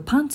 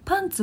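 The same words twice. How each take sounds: First: The pitch rises and stays level. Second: The pitch is high first, then falls. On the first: It means trousers. "パンツは人に見せてもOK" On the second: It means underwear. "パンツは人に見せちゃいけないけど"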